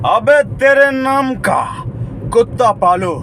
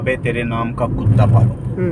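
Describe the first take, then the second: First: It is high-pitched, with a pause and breathy ending. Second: It is said in an ordinary, plain voice. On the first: "उनका थोड़ा high note, मतलब तेज से, ... यहाँ रुक के हवा लास्ट में छोड़ा" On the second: "नॉर्मल इंसान उसको ऐसे ही बोलेगा।"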